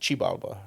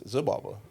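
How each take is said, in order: First: The word begins with a ch sound. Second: The word begins with a z sound. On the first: This is how Nahuatl speakers say it. "if you speak Nahuatl, they would pronounce it" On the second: This is how Americans say it. "if you're American, it's"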